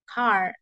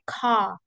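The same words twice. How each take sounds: First: The final R sound is clearly pronounced. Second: The final R sound is dropped. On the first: "Americans, it's more sounds like car... you can hear the R" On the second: "British is more like car... The R, it's not voice"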